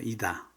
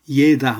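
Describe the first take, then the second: First: The first vowel sounds like 'ee'. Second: The first vowel sounds like 'ye'. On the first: The speaker calls it right. "우다레니가 아에 있어서 이다라고 합니다" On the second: The speaker calls it wrong. "예다 하면 안 되죠"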